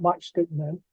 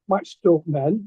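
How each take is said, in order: First: "Matchstick" with a short i, softer, as an aside; stick, not stalk. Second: "Matchstick" said as "match-stalk", with an aw vowel; stalk, not stick. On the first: Artist's fan rules out the wrong title, "Matchstick" with short-i stick. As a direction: say "Matchstick" plainly with "stick" at the end. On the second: Artist's fan gets the title right, "Matchstick" pronounced match-stalk. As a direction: say the second half of "Matchstick" like "stalk". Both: Shown as a demonstration. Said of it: "not Matchstick Men".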